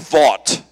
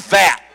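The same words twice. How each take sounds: First: The vowel does not sound like vat. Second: The vowel sounds like the one in vat.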